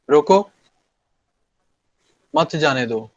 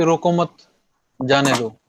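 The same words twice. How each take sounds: First: रोको alone, a long pause, then मत जाने दो together; pause after रोको. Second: रोको मत run together, a pause, then जाने दो; pause after मत. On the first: Teacher demonstrating to class where to stop, long pause after रोको before मत जाने दो. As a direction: halt after रोको, keep मत joined to जाने दो. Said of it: "रोको के बाद से रुक गया हूं मैं". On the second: Teacher showing class the opposite meaning, रोको मत joined, pause after मत. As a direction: stress मत and stop there before जाने दो. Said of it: "मत पे मैंने जब बलाघात दे के रोका". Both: Shown as a demonstration.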